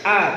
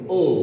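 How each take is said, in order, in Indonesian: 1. Vokalnya tipis dan biasa, seperti a. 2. Vokalnya tebal dan membulat, seperti o. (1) "A biasa" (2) "Jangan a'udzu atau o"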